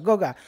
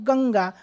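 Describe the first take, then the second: First: The first syllable has no nasal sound. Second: The first syllable has a clear nasal sound. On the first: The written word lacks its nasal mark. The speaker calls it wrong. "बिंदू नाही दिला ना मी... गगा झालं" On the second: The written word has its nasal mark. The speaker calls it right. "आपल्याला काय म्हणायचं होतं? गंगा"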